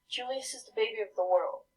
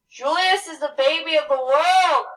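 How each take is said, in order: First: It is said at a quieter, normal volume. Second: It is said loudly, almost shouted.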